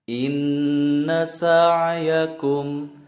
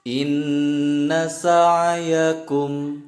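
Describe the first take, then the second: The two takes are said the same way.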